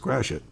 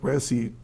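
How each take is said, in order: First: The name sounds like the words crash it. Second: The name sounds like the word grassy. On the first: The speaker calls it right. "it's Crash It" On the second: The speaker calls it wrong. "it's not Point Grassy"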